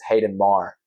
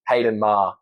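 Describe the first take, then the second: First: The name is said in an American accent. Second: The name is said in an Australian accent.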